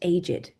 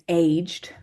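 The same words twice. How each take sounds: First: The ending is an extra id syllable. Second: The ending is a plain d sound. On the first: He is old. "meaning old as an adjective, we're going to pronounce it aged" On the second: He has grown older. "he's got older, he's aged"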